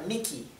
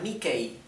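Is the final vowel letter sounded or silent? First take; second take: silent; sounded. First: The final e is silent. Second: The final e is sounded as a vowel. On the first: The speaker calls it right. "se pronuncia Mickey, como está en verde" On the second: The speaker calls it wrong. "no se pronuncia Mickey"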